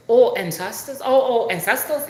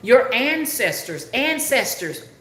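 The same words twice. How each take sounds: First: Higher, louder mimicked African accent; imitated African accent. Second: ANCESTORS repeated higher in careful, proper English; trying to talk proper. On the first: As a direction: mimic an African man finally catching on. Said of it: "He's from Africa". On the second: Retold or imitated. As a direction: spell out "ancestors" slowly for a confused listener. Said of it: "when I tried to talk proper".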